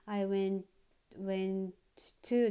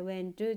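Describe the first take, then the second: First: Both t sounds are said separately. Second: The two t sounds join into one. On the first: The speaker calls it wrong. "ではなくて" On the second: The speaker calls it right. "T とT がこれもつながっています"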